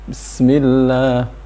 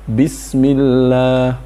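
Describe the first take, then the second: First: The opening b sound is barely heard. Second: The opening b sound is fully pronounced. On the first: The speaker calls it wrong. "bahkan tidak terdengar ada ba-nya, langsung sin" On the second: The speaker calls it right. "Harus utuh ba-nya"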